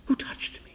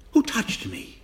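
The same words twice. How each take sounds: First: Hushed whispered question. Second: Said in the usual way. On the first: Shown as a demonstration.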